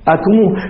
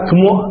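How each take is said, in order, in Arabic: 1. تنتهي الكلمة بصوت واو. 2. تنتهي الكلمة بهمزة. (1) "فيقلبونها واوا" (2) "ما نقول أكمؤ"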